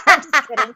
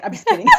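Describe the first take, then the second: First: Laughing loudly through the words. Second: Chuckling. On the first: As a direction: say it while cracking up laughing. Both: Real, not acted. Teasing after mock complaint.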